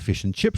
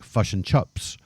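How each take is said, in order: First: The vowel in chips sounds like a clear i. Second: The vowel in chips sounds closer to chops.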